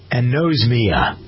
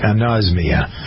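First: The middle syllable sounds like 'nose'. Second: The middle syllable sounds like 'oz'. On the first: The speaker calls it wrong. "I did anosmia because it seemed like it ought to pertain to the nose" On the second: The speaker calls it right. "But you don't pronounce it that way"

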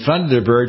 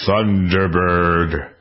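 First: It is said in a plain, ordinary voice. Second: It is said in a deep, booming announcer voice. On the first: The speaker calls it wrong. "You just can't say Thunderbird" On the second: The speaker calls it right. "I have to give that a base. A base aspect"

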